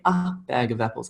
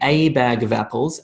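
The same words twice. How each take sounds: First: The vowel in 'bag' is a short sound. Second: The vowel in 'bag' is long, not short. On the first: The speaker calls it right. "We say a bag of apples ... it's one of those short vowel sounds" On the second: The speaker calls it wrong. "We don't say a bag of apples"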